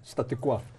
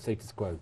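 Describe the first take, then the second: First: The first word ends without an s sound. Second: The first word ends with an s sound. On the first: The speaker calls it wrong. "they say, do you like statu quo?" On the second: The speaker calls it right. "No, it's status quo"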